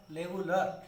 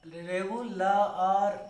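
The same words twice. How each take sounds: First: Said in the usual way. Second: रेगुलर said very slowly, vowels stretched long; drawn-out regular. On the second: Shown as a demonstration. (रेगुलर को बहुत धीरे खींचकर) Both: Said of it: "इसमें भी आ रहा है".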